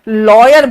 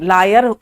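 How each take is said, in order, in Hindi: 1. पहला अक्षर 'law' जैसा सुनाई देता है। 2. पहला अक्षर 'lie' जैसा सुनाई देता है। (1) "अरे लॉयर बोलो" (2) "लोग फिर लॉयर को लायर बोलने लगते हैं"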